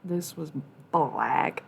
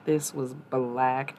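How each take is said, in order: First: Said in the usual way. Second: "This was black." dragged out very slow, "This" leaned on; slow emphasis. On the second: Shown as a demonstration. Streamer showing her dirty bong, very slow emphasis. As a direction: stretch "This was black." slowly for effect.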